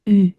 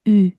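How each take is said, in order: Both takes have the same delivery.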